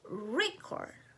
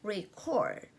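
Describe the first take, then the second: First: The stress is on the first syllable. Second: The stress is on the second syllable.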